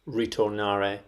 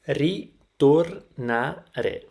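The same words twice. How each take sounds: First: The R is a soft English R. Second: The R is a rolled Italian R. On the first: The speaker calls it wrong. "use the English native R" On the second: The speaker calls it right. "quite difficult to pronounce because of the R sound"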